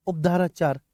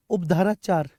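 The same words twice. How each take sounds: The two takes are said the same way.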